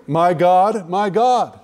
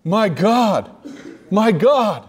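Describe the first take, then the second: First: Two short calls of "My God", run close together; two separate addressees. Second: "My God" twice, each set apart by a firm pause; emphatic repetition. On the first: Retold or imitated. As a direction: say each "My God" as if naming someone different. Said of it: "Jesus is speaking about God the Father and God the Spirit". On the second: Shown as a demonstration. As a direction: hit "My God" hard, pause, then drive it home. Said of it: "what it is saying is emphatically".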